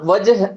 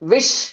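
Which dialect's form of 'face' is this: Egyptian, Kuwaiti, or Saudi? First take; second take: Saudi; Egyptian. First: It is said as 'wajh', Saudi style. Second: It is said as 'wish', Egyptian style. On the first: "சவுதியா இருக்கட்டும், இது எப்படி சொல்லுவாங்கன்னா வஜ் அப்படிங்கறத என்ன பண்ணுவாங்க? பயன்படுத்துவாங்க" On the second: "ஒரு எஜிப்சியனா இருந்தா விஷ்"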